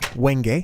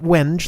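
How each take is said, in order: First: The word is pronounced differently from its spelling. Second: The word is pronounced as it is spelled. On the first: The speaker calls it right. "That's how you pronounce that, apparently" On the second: The speaker calls it wrong. "Not not wenge like it looks"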